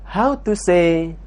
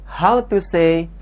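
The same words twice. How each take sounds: Both takes have the same delivery.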